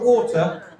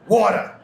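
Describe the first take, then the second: First: It is said in a British accent. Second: It is said in an American accent. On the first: The speaker calls it wrong. "Not water" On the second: The speaker calls it right. "you've got to say American to say them right"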